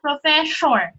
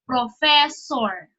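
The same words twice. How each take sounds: First: The middle consonant sounds like sh. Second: The middle consonant is a clear, solid s. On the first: The speaker calls it wrong. "it is not professor" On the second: The speaker calls it right. "a solid so. So, professor"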